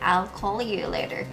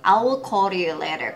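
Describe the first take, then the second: First: I will is joined into one syllable, I'll. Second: I will is said as two full words.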